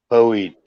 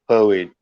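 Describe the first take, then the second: No difference in how they are said.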